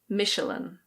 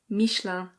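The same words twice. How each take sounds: First: It is said with an English pronunciation. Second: It is said with a French pronunciation. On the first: "In English, we say Michelin" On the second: "In French, this is pronounced Michelin"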